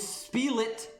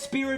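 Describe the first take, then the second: First: The middle consonant sounds like an L. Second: The middle consonant sounds like an R. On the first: It is the name printed on the soundtrack. The speaker calls it wrong. "the official name of that song is" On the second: It is the name that was intended. The speaker calls it right. "Everyone says"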